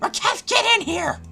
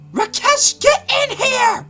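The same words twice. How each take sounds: First: It is said in a Solix Captor creature voice. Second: It is said in a put-on female voice.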